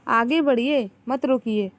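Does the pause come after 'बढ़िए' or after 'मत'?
after बढ़िए. The pause comes after 'बढ़िए'.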